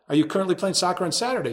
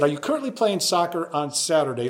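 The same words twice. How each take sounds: First: Repeats "Are you currently playing soccer on Saturday?" faster, a bit higher and puzzled; incredulous echo. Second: Said in the usual way. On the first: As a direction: echo the question back in disbelief, quickly.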